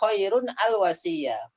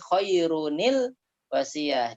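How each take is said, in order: First: The words are said separately without an added 'ni'. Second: The words are joined with an added 'ni' sound. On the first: The speaker calls it wrong. "yang nggak bisa dibaca" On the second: The speaker calls it right. "kalau mau disambung"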